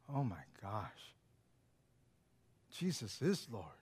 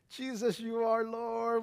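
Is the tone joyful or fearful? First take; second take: fearful; joyful. First: It is said with fearful dread. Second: It is said with joyful awe.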